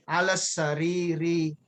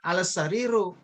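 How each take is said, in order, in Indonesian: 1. Kata terakhir diakhiri dengan vokal i. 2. Kata terakhir diakhiri dengan vokal u. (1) "tapi bacalah alas sariri" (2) "jangan kamu baca alas sariru"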